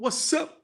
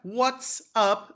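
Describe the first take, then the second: First: The two words run together into one. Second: The two words are said separately and clearly.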